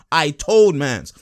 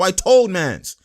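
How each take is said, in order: First: Each word dragged out slow and lower; slowed, emphatic. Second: Said in the usual way. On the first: Shown as a demonstration. Repeating it slowly to the people who doubted him.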